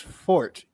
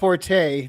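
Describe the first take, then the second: First: The word is said as one syllable. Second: The word is said with two syllables. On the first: The speaker calls it right. "The correct pronunciation is fort" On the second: The speaker calls it wrong. "it's not forte"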